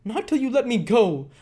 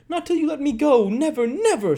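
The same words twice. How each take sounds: First: Loud, much higher scream; screamed refusal. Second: Even higher, louder, strained scream; piercing scream. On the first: Nancy screaming at Sikes, loud. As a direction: refuse him at full voice. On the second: Nancy screaming her refusal, piercing. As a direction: scream it past breaking point. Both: Acted. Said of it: "screamed the girl".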